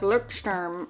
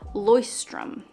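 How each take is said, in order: First: The word is pronounced in an anglicized way. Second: The word is pronounced the German way. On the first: The speaker calls it wrong. "I thought it was like Leuchtturm or something like that" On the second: The speaker calls it right. "I looked up the pronunciation of this"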